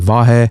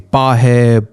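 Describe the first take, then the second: First: The name begins with a V sound. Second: The name begins with a B sound. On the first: The speaker calls it right. "They cannot pronounce V" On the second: The speaker calls it wrong. "pronounce it as a B, like a B as in boy"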